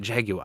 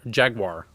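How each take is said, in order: First: It is said with a British pronunciation. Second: It is said with an American pronunciation. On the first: "The British would say jaguar" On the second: "we say jaguar"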